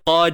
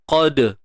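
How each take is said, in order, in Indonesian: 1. Huruf d terlalu lembut, hampir tidak ada lantunan. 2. Huruf d di akhir ada sedikit lantunan yang terdengar. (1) "jangan nampak sangat kita kata tenang sangat bunyi dia" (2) "qalqalah sughra ni adalah lantunan yang kecil ataupun yang lemah"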